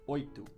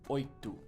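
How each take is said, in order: Both takes have the same delivery.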